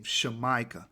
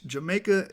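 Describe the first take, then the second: First: Shemaica said as sheh-MY-kah, starting with sh; correct pronunciation. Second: Said in the usual way. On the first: Shown as a demonstration. Teacher giving the original land name Shemaica, said sheh-MY-kah. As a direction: say Shemaica with sh where English has j. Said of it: "That's how you're supposed to say it". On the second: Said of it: "is not supposed to be pronounced Jamaica".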